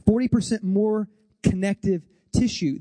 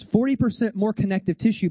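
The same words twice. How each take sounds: First: "Forty percent more connective tissue" in separated chunks; emphatic repetition. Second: Said in the usual way. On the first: Real, not acted. Speaker driving a brain fact home, emphatic pauses between words. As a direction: space out "connective" and "tissue" for weight.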